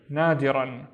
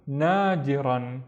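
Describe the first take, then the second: First: Said in the usual way. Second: "nadiran" drawn out slowly; slow, careful "nadiran"; slow blend. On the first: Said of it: "normal repeat". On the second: Shown as a demonstration. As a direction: stretch "nadiran" out for learners. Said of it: "slowed word demo".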